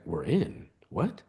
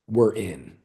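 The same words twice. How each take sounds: First: Stunned disbelief. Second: Said in the usual way. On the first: Retold or imitated. Reacting to his friend's news, quietly stunned. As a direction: echo the news softly, incredulous.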